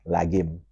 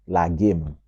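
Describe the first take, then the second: Both takes have the same delivery.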